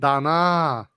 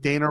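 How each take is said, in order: First: The name is said with a Thai pronunciation. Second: The name is said with an American English pronunciation.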